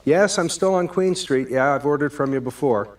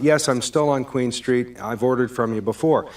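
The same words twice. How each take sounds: First: Brighter, cheerful confirmation; patient and friendly. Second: That tone. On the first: Shown as a demonstration. Caller cheerfully confirming his address to the pizza guy. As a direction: keep it upbeat, no edge. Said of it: "the second version of that". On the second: Acted. Caller reminding the pizza guy he's ordered before, exasperated. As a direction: spell it out like he should know. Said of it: "Now I'm getting that tone in my voice".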